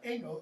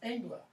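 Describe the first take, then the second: First: The word ends with an 'el' sound. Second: The word ends with an 'la' sound. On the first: The speaker calls it wrong. "I mispronounced it. I said Engel. It's not Engel" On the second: The speaker calls it right. "it's Engla"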